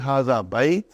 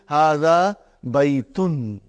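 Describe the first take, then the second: First: The final ending of the last word is dropped. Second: The final ending of the last word is pronounced. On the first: "that's the way you stop it. You don't put the, uh, uh, you know, pronounce the last" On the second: "we will pronounce everything"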